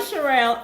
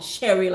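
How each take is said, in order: First: The name is said in an unfamiliar pronunciation. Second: The name is said in a familiar pronunciation.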